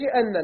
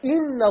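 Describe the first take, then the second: First: The word begins with an 'a' vowel. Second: The word begins with an 'i' vowel. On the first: The speaker calls it wrong. "مش أن، لا" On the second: The speaker calls it right. "ذلك بكسر الهمزة"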